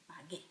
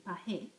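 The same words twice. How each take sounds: First: Pagué with a hard G, like pah-GAY. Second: Teacher shows what the spelling would wrongly sound like, slowly; wrong reading. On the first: Teacher showing students the corrected spelling, pagué with hard G. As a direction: make pagué's G hard, quick and under the breath. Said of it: "I need a hard G sound". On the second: Teacher warning students of the wrong sound, pagué read like pa-heh. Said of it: "that would say pagué". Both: Shown as a demonstration.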